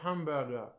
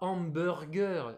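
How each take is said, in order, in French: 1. Il est prononcé à l'anglaise. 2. Il est prononcé à la française. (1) "c'est en anglais hamburger" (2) "c'est pas hamburger"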